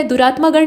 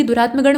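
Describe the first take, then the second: First: दुरात्मा गण said 'duraat-maa-gan'; दुरात्मा with long आ. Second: दुरात्मा गण said 'duraat-ma-gan'; दुरात्मा with short अ. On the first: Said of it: "नहीं बल्कि". (दुरात्मा गण में 'मा' दीर्घ बोलें) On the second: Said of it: "बल्कि दुरात्मा गण होता है". (दुरात्मा गण को 'दुरात्मगण' बोलें) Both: Shown as a demonstration.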